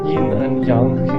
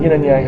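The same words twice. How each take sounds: First: It is said with a Mandarin Chinese pronunciation. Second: It is said with a Western English pronunciation. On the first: "In in Chinese and Mandarin Chinese, the pronunciation is" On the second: "how we say it, okay? How we used to saying it in the West"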